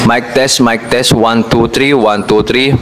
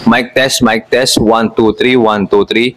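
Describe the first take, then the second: First: Background noise is left audible around the voice. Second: Background noise is suppressed around the voice. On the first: "Ngayon i-off ko naman yung noise cancelling" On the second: "Ngayon ito is may naka-on yung noise cancelling niya"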